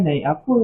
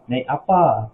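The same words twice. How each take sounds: First: "apa" said colloquially, last vowel as a schwa; colloquial pronunciation. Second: "apa" with a full open "a" at the end; standard Malay pronunciation. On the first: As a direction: say "naik apa" casually, ending in "uh". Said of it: "kita biasa cakap bahasa pasar kan apa". (sebutan bahasa pasar, "apa" berbunyi e pepet di hujung) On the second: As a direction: say "naik apa" formally, both vowels as "ah". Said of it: "itu bahasa baku". (sebutan baku, "apa" berbunyi a penuh) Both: Shown as a demonstration.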